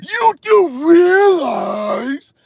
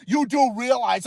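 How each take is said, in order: First: Loud, high, hugely stretched mocking cry; mock know-it-all expert. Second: Said in the usual way. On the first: Streamer mimicking what experts always say, exaggerated mocking voice. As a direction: wail it slowly to ridicule the expert. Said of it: "They always gotta say".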